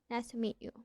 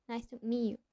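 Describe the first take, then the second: First: The t and y merge into a ch sound. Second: The same.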